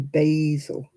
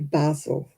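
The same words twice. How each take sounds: First: It is said with an American pronunciation. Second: It is said with a British pronunciation.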